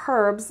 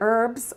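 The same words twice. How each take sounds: First: The word begins with an audible h sound. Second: The word begins with a vowel, no h sound.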